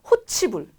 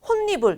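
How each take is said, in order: First: The middle consonant is a ch sound. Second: The middle consonant is a doubled n sound. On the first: The speaker calls it wrong. "구개연마로 만약에 이 발음을 억지로 해본다면 이렇게 해야 되거든요" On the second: The speaker calls it right. "결론적으로는 혼니불 이렇게 됐고요"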